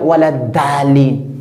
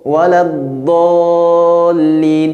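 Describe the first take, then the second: First: The last word starts with a plain, light d. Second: The last word starts with a heavy, emphatic d. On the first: The speaker calls it wrong. "c'est une grande erreur" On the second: The speaker calls it right. "Comme dans la sourate Al-Fatiha"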